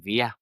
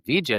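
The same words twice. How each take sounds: First: The double L sounds like an English Y. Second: The double L sounds like an English J.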